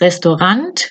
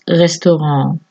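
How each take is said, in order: First: The final T is clearly pronounced. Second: The final T is silent, French style. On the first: The speaker calls it wrong. "No es restaurant con la T" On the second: The speaker calls it right. "porque viene del francés, lo pronunciamos restaurant"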